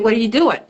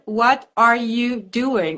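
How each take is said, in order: First: The words are run together and shortened. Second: Every word is said clearly and separately. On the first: "all of a sudden you say" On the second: "you learn"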